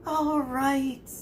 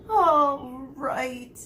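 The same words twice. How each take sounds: First: High, tearful surrender; sobbing give-in. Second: High and louder, tearful surrender; sobbing give-in. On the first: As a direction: give in through a sob. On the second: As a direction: cave in with a sob. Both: A narrator's reading. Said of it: "he heard Quirrell sob".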